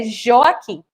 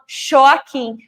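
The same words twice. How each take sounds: First: Said in the usual way. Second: "Joaquim" starting with sh, as Xoaquim; child's devoiced J. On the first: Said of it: "O nome do meu filho". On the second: Shown as a demonstration. Teacher imitating small children's mistake, sh for J. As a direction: swap the voiced J of "Joaquim" for voiceless sh. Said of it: "Muitas crianças pequenas usam".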